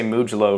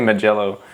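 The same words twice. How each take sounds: First: Mugello as "MOO-juh-loh", stressed on the first syllable; funny mispronunciation. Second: Mugello as "muh-JELL-oh", stressed on the middle; proper pronunciation. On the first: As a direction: say Mugello comically, leaning on MOO. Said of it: "'cause it sounds funny". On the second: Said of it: "It's definitely Mugello". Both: Shown as a demonstration.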